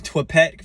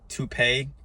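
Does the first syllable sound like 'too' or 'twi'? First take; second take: twi; too. First: The first syllable sounds like 'twi'. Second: The first syllable sounds like 'too'. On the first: The speaker calls it wrong. "I've been saying Twipet" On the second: The speaker calls it right. "I realized it was called Toupet"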